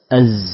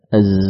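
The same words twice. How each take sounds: First: The final z turns into a hissing s. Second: The final z stays buzzing without extra breath. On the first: The speaker calls it wrong. "awalnya zai, akhirnya apa? Sin" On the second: The speaker calls it right. "Kalau zai tahan"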